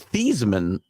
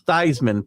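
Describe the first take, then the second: First: The name does not rhyme with Heisman. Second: The name rhymes with Heisman. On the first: This is the family's original pronunciation. "His name was actually Thiesman" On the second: This is the changed pronunciation he was talked into. "so that it would rhyme with Heisman"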